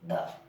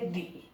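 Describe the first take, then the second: First: The word ends in a short 'uh' vowel. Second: The word ends in a long 'ee' vowel. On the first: The next word starts with a consonant sound. "तो इसका pronunciation क्या आएगा? द।" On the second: The next word starts with a vowel sound. "दूसरा इसका pronunciation पढ़ेंगे दी।"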